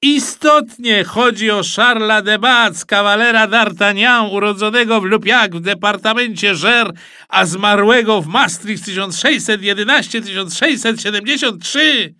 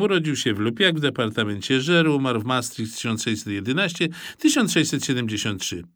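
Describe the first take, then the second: First: High, loud triumphant announcement; shouting radio host. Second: Said in the usual way. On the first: A narrator's reading. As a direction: proclaim the correct answer to the audience. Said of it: "krzyknął pan z radia". (donośne, wysokie ogłoszenie prowadzącego)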